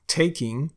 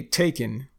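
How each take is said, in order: First: Said in the usual way. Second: "taken" for taking, ending in a plain n; dropped G. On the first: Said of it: "instead of saying taking". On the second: Shown as a demonstration. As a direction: say "taken" with no ng sound. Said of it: "we drop the G at the end of words".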